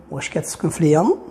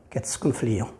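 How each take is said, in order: First: "ليون" rising at the end; question intonation. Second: Said in the usual way. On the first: Shown as a demonstration. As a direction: ask with a lift on "ليون". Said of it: "ثاني طريقة باش نسولو". (نبرة سؤال، مع رفع "ليون") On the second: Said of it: "هذا إخبار".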